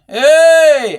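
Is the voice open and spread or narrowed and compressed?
open. The voice sounds open and spread, less compressed. "listen to the difference in open"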